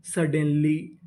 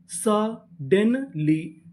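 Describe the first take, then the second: First: Said in the usual way. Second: suddenly stretched out slowly, each syllable joined; slow blended word. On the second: Shown as a demonstration. (Suddenly धीरे-धीरे खींचकर) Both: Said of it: "पूरी meaning".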